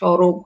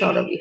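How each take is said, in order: First: The first vowel is a closed 'o' sound. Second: The first vowel is an open 'aw' sound. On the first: The speaker calls it wrong. "সরব হবে না।" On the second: The speaker calls it right. "সরব কিন্তু সরবই হবে"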